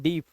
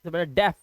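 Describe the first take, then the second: First: The vowel sounds like 'ee' in see. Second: The vowel sounds like 'e' in bed. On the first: The speaker calls it wrong. "डीफ नहीं पढ़ते" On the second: The speaker calls it right. "ए का आवाज आ रहा है"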